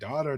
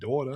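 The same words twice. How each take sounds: First: It is said without a New York accent. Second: It is said with a New York accent. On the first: The speaker calls it right. "She says it's daughter" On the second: The speaker calls it wrong. "not daughter"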